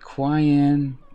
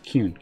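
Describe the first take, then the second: First: The name does not rhyme with rune. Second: The name rhymes with rune. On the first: The speaker calls it wrong. "I've been called Quayan" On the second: The speaker calls it right. "it kind of rhymes with Rune"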